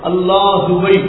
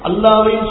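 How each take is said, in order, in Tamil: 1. h-க்குப் பின் தெளிவான 'u' ஒலி வருகிறது. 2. h நேராக அடுத்த அசைக்குள் இணைகிறது. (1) "அல்லாஹுவை உச்சரித்து சொல்லணும்" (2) "அல்லாஹ்வையும் சொல்லக்கூடாது"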